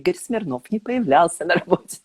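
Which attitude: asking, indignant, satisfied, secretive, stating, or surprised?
satisfied. It is said with a deeply satisfied tone. The speaker is pleased by this. "С чувством глубокого удовлетворения"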